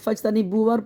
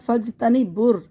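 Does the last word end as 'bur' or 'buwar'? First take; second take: buwar; bur. First: An extra 'wa' syllable comes before the final r. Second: The b joins the r directly as 'bur'. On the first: The speaker calls it wrong. "बहुत से लोग पढ़ देते हैं, वाव को इजाफा कर लेते हैं, जबर लगा देते हैं" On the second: The speaker calls it right. "बुर पढ़ेंगे इसको"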